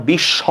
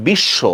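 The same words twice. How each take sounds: First: বিশ্ব with open অ at the end, bish-sha; wrong pronunciation. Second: বিশ্ব with closed ও ending, bish-sho; correct pronunciation. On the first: Teacher demonstrating the mistaken reading. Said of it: "এভাবে বলবো না". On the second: Teacher giving the right reading to students. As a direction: end বিশ্ব on a rounded o. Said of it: "আমরা কি বলবো?". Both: Shown as a demonstration.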